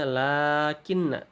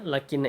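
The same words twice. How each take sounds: First: The first vowel is long. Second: The first vowel is short. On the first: "dibacanya harusnya lakinna" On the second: "bahasanya lakinna itu"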